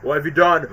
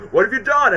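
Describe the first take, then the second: First: Said in the usual way. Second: Angrier repeat. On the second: Retold or imitated. Harry confronting Goblin, louder angry repeat. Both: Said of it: "said the exact same thing".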